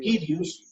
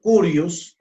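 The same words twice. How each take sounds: First: "Kyrios" with a clear k and an "ee" sound, KEE-ryus. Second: "Curios" with an "oo" sound, KOO-ryos. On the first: Teacher gives class the Greek form: "Kyrios" as KEE-ryus. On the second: Teacher gives class the variant: "Curios" as KOO-ryos. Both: Shown as a demonstration. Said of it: "Otros dicen Curios".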